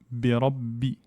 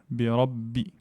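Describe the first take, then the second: Both takes have the same delivery.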